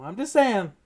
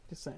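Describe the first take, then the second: First: Louder, insistent I'm just saying; teasing his co-host, insistently repeating his point; pointed jab. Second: Much softer throwaway just saying; slipping in one last quiet dig at his co-host; muttered aside. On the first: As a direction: press the point home with a teasing needle. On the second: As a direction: toss it off under your breath, slyly. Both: Real, not acted. Repeating his jab at the Brees pick.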